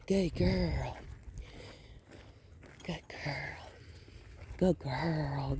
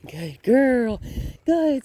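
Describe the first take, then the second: First: Soft unvoiced praise to a dog; whispered praise. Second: Excited praise. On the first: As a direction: breathe the praise, barely voiced. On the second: Praising the dog on a walk. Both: Real, not acted.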